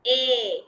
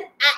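First: "A" drawn out as "ay"; long A sound. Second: "A" as the short phonic vowel in apple; short A sound. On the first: Teacher showing what it changes to, long "A" pronounced "ay". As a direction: say "A" lower, as the long vowel in rain. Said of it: "It will change to long sound". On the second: Teacher showing what it will not be, "A" as short "a" of apple. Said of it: "It will not be short sound". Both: Shown as a demonstration.

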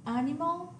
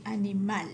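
First: Animal said the English way, stress on AN; English animal, stressed at the front; English pronunciation. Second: Animal said in Spanish, stress on the final MAL; Spanish animal, stressed at the end; Spanish pronunciation. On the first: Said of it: "we have the word". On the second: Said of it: "it only changes the pronunciation". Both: Shown as a demonstration.

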